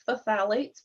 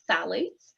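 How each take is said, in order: First: The starting 'ph' sound is pronounced aloud. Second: The starting 'ph' sound is left silent. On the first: The speaker calls it wrong. "it's a funny little word there with the pH" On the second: The speaker calls it right. "but we pronounce it"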